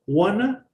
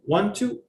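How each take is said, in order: First: The words are blended into one reduced word. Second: Both words are said fully and separately. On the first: "reduce phrases" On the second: "It's like saying"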